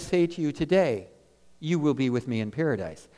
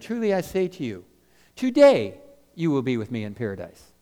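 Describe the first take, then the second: First: The pause comes after the word today. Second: The pause comes before the word today.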